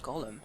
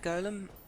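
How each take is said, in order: First: The word sounds like the name Gollum. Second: The word sounds different from the name Gollum. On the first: This is the officially correct pronunciation. "apparently the proper pronunciation is golem" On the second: This is the habitual pronunciation, avoiding confusion. "I've always pronounced it golem"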